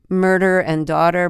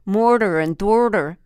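First: It is said in a plain, general accent. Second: It is said in an exaggerated Philadelphia accent. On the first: "instead of saying murder and daughter" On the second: "the perhaps overly exaggerated Philadelphia accents, it's like I can't even do it right"

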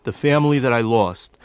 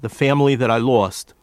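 Both takes have the same delivery.

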